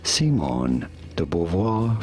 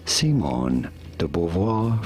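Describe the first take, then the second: First: The name is said with French pronunciation. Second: The same.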